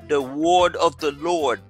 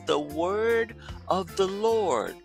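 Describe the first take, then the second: First: The vowel in 'word' sounds like 'or'. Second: The vowel in 'word' sounds like 'er'. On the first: The speaker calls it wrong. "Si ça fait francophone, non" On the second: The speaker calls it right. "c'est comme si on E R devant, on dit word"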